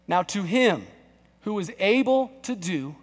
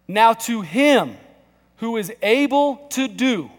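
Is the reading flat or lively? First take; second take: flat; lively. First: The reading is plain and low in energy. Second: The reading is loud and full of energy. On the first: The speaker calls it wrong. "Read it out loud" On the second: The speaker calls it right. "read it like that's the living word of God and not the Sunday morning paper"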